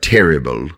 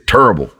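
First: The word is pronounced just as it is spelled. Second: The word has a local Southern regional pronunciation. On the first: "we don't say it like it's spelled terrible" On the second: "We say terrible"

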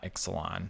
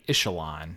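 First: The middle consonant is pronounced as ks. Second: The middle consonant is pronounced as sh. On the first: The speaker calls it wrong. "not Ixalon" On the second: The speaker calls it right. "the X is an SH there"

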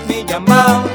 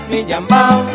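Both takes have the same delivery.

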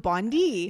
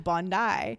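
First: The name is said with a Canadian-style pronunciation. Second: The name is said with the local Australian pronunciation. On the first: The speaker calls it wrong. "I thought was Bondi" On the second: The speaker calls it right. "I found it was Bondi"

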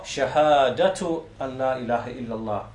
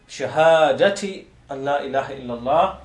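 First: The first word ends with a u vowel. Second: The first word ends with an i vowel. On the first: The phrase is read in the nominative case. "nominative, shahadatu" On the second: The phrase is read in the genitive case. "it can either be in the genitive form"

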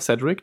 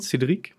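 First: The name is said with English pronunciation. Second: The name is said with French pronunciation. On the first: "Man kann es englisch aussprechen" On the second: "man kann es ja französisch aussprechen"

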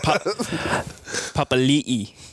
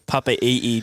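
First: The name is said with an L sound. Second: The name is said without an L sound. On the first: The speaker calls it right. "You're forgetting the L" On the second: The speaker calls it wrong. "that's not even the right pronunciation"

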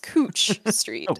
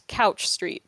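First: The first word rhymes with smooch. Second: The first word rhymes with pouch. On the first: The speaker calls it right. "but it is" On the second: The speaker calls it wrong. "the correct pronunciation of it is not, in fact"

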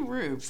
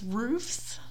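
First: The word ends with a v sound. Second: The word ends with an f sound. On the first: "Like hooves" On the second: "It's roofs"

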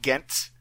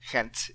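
First: The name is said with an English pronunciation. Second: The name is said with a Flemish pronunciation. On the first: This is the form most people would use. "I would call it Ghent for most people" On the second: This is how local people would say it. "if you really wanted to be a little more Flemish about it"

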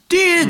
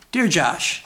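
First: It is said in a put-on impersonation voice. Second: It is said in a normal speaking voice. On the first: "let's try the voice" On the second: "Don't do the voice"

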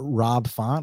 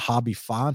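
First: Rob starts with an English r sound. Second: Rob starts with a Brazilian h sound.

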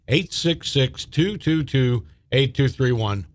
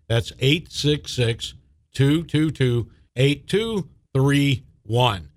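First: The number is read at normal speed. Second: The number is read slowly.

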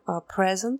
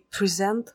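First: The stress is on the first syllable. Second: The stress is on the second syllable. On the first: It is the noun meaning a gift. "present – подарок" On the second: It is the verb meaning to introduce or show. "present – представлять"

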